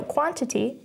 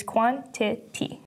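First: Said in the usual way. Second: "quantity" broken into three separate beats, quan-ti-ty; syllable by syllable. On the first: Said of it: "is three syllables because it is quantity". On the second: Shown as a demonstration. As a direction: sound out "quantity" one syllable at a time. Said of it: "is three syllables because it is".

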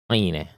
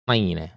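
Both takes have the same delivery.

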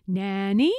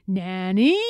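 First: Rising call, held well back; mock scream. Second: Louder rising call, contained; mild narrated scream. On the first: Eloise copying her tutor's scream, mild rising call. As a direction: echo the tutor's call lightly. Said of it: "then I scream". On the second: Tutor calling for Nanny, mild mock scream. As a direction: call out for help, screaming only lightly. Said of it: "And then he screams". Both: A narrator's reading.

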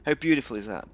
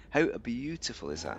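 First: Said in the usual way. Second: "beautiful" with a clearly sounded T; crisp T in BEAUTIFUL. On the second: Shown as a demonstration. Player teaching viewers pronunciation, T sounded in "beautiful". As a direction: say "beautiful" with T, not D. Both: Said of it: "There's a T in beautiful".

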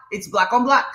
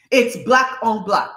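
First: Said in the usual way. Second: "Black on Black" slowed down, word by word; slow, deliberate "Black on Black" falling at the end; emphatic repeat. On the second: Real, not acted. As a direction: weigh each word of "Black on Black".

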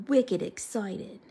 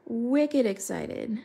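First: Slow Boston-accented "wicked excited"; drawn-out Boston accent. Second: Said in the usual way. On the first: Shown as a demonstration. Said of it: "like, a Boston accent". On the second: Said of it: "I almost said that in, like, a Boston accent".

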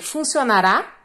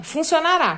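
First: "Funcionará?" with a rising end; teacher modelling a question; question intonation. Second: "Funcionará." with a falling end; plain statement tune for contrast. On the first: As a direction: ask "Funcionará?" with the pitch going up at the end. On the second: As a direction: say "Funcionará." flatly finished, pitch dropping. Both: Shown as a demonstration. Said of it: "funcionará seria uma forma de pergunta".

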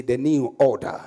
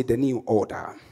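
First: Declared firmly, a little stronger; with conviction. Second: Said in the usual way. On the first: Real, not acted. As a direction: say it like you believe it. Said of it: "Say it with conviction".

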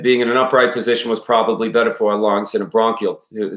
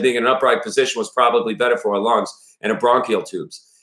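First: Put-on Maine father drifting into a Boston accent; Maine accent slipping into Boston. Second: Put-on father character with a Maine accent. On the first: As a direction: attempt Maine, let it slide into Boston. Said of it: "I start going into Boston". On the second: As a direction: retake it as a Mainer, not a Bostonian. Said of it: "it's Maine".

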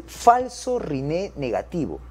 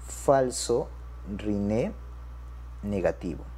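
First: Said in the usual way. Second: Word by word, with pauses between; dictation pace. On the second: Shown as a demonstration. Teacher repeats a new term to doctors, dictation pace. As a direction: spell out the term slowly, falling away at the end.

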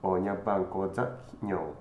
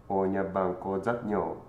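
No difference in how they are said.

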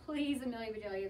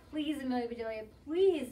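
First: Worried plea. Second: Shouted plea. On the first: Worried team to their batter, restrained pleading. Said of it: "The Grizzlies were worried". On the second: Team begging the batter, plea rising to a shout. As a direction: beg louder, peaking on the last word. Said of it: "shouted the Grizzlies". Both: A narrator's reading.

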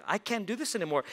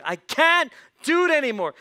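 First: Mildly exasperated, a bit higher; a touch of weary frustration; fed up. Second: High, loud exasperated outburst; fed up. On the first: Boy stuck doing his sister's chores, mildly fed up. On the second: Boy stuck doing his sister's chores, loudly fed up. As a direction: cry out at the end of your patience. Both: Acted. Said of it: "He got just fed up".

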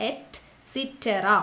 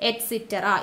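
First: Et cetera stretched very slowly, syllable by syllable; each syllable of Et cetera drawn out; slow spelling-out. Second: Said in the usual way. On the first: Shown as a demonstration. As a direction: dictate Et cetera slowly for students to copy. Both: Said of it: "അപ്പൊ et cetera എന്ന് തന്നെ പഠിക്കുക".

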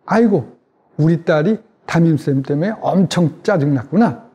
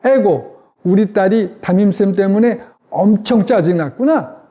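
First: Empathetic mirroring. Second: Empathetic mirroring, practice take. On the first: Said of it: "아이 얼굴을 그대로 따라하면서". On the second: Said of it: "제 얼굴을 잘 보시면서 그대로". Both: Shown as a demonstration.

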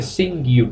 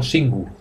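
First: "singu" with the U said as "you"; "singu" pronounced "sing-gyu"; correct "singu". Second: "singu" with a plain Spanish U; "singu" pronounced "sin-goo", Spanish style; wrong "singu". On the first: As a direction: say "singu" with a y-glide before the U. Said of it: "se dice singu, no singu". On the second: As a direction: say "singu" with a pure "oo", no glide. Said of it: "no singu". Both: Shown as a demonstration.

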